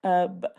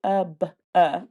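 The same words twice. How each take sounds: First: Tub ending cleanly on the B, no vowel after; correct tub. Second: Tub with an added uh after the B, tub-uh; wrong tub. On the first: Teacher demonstrating the right way to say tub. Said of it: "that's what it should be like". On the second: Teacher showing the extra sound in tub-uh. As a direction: tack an uh onto tub. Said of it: "otherwise the sound would be". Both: Shown as a demonstration.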